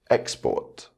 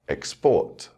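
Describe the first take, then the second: First: The stress is on the first syllable. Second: The stress is on the second syllable. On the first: It is used as a noun. "the noun will have its word stress on the first syllable" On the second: It is used as a verb. "with the verb, the stress will fall on the second syllable"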